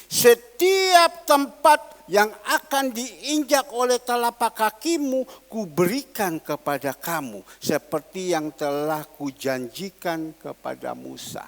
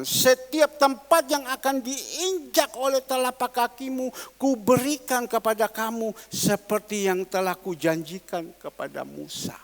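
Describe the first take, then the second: First: Louder, slow, preached with force; scripture proclaimed. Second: Scripture repeated. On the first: Preacher proclaims God's promise to Joshua, forceful and slow. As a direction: proclaim the verse slowly and loudly. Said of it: "kita melihat". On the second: Preacher repeats the verse to the congregation, forceful. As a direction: proclaim it again, firm then trailing off. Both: Acted.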